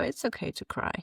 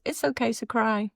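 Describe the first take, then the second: First: Put-on child comforting. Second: Put-on child comforting again. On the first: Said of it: "she'll go".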